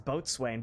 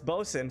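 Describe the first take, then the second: First: It is said in full as boat-swain. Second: It is contracted to two short syllables, bosun. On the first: "I always read that as boatswain" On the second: "So it's bosun"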